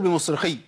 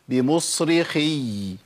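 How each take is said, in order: First: The final y sound is dropped and not heard. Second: The final doubled y sound is clearly held. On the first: The speaker calls it wrong. "فين الياء؟ انت سمعت مني ياء؟" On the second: The speaker calls it right. "لازم اقول بمصرخي"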